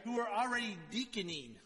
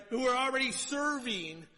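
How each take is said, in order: First: Said in the usual way. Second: "serving" restated louder and higher as the fix; louder, higher restatement of the right word; corrective stress. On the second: Real, not acted. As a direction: firmly correct yourself with "Who are already serving". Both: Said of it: "I don't know if that's the right way to put that".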